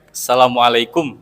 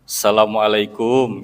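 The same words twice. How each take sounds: First: The final syllable kum is kept short. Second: The final syllable kum is drawn out long. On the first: The speaker calls it right. "kalau secara bahasa Arabnya pendek" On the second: The speaker calls it wrong. "orang Indonesia biasanya dipanjangkan ... Jadi kumnya tuh dipanjangin"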